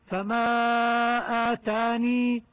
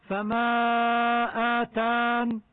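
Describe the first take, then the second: First: فما آتاني slow, ending on a held long ii; stop keeping the ya. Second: فما آتان slow, ending on n with no ii; stop dropping the ya. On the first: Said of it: "عند الوقف يجوز إثبات الياء". (وقف على آتاني بإثبات الياء) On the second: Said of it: "وحذفها". (وقف على آتان بحذف الياء) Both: Shown as a demonstration.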